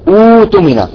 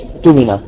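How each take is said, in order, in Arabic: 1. تبدأ الكلمة وحدها بصوت مدّ ممدود. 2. الكلمة متصلة بسلاسة بالكلمة التي قبلها. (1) "إذا أردنا أن نبدأ بها ... نقول ائتمن" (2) "نحن في الوصل نقول الذي ائتمن"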